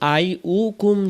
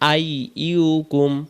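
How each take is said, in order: First: The second syllable begins with a bare u vowel. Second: The second syllable begins with a y sound. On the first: The speaker calls it wrong. "আমরা অনেকে বলি আই উকুম" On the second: The speaker calls it right. "ইয়া পেশ ইউ আই ইউকুম"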